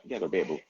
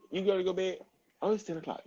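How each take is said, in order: First: Said in the usual way. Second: Put-on pitched up high for the kid; sing-song it up high, coaxing; high bedtime voice. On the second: To her child at ten o'clock, a high coaxing voice.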